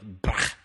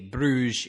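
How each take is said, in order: First: It is said the local way, like brahh. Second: It is said the usual English way, like broozh.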